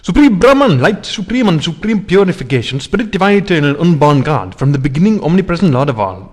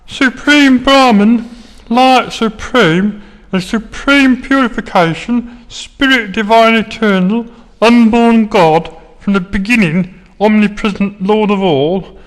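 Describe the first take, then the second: First: It is said in a normal voice. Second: It is said in a funny put-on voice.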